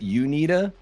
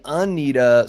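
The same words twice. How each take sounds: First: The first syllable sounds like 'you'. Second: The first syllable sounds like 'un'. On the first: "I always thought it was UNITA, as in you need the yeah you need it" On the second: "they're saying UNITA, sort of like undead"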